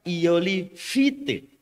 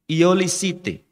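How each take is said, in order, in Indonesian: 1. Konsonan tengah dibaca F. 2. Konsonan tengah dibaca S. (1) "Ini jangan dibaca Iolifite" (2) "Nah ini"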